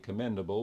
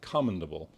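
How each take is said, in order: First: It is said in the everyday modern way. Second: It is said in the older, Shakespearean way. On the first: "We say commendable" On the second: "he pronounces it commendable"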